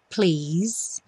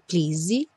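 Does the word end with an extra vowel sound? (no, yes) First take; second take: no; yes. First: The word ends cleanly without an added vowel. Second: The word ends with an added vowel sound. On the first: The speaker calls it right. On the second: The speaker calls it wrong.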